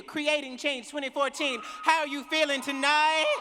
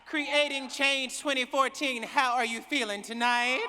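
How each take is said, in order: First: Shouted crowd call, pitched up and rising at the end; louder call again. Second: Raised call to the crowd; warm-up call, projected to the hall. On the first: Speaker repeats her crowd call, pushing much louder. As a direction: shout it louder to rouse the room. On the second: Speaker calls out to the conference crowd, raised voice. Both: Real, not acted. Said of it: "I don't know if I believe you".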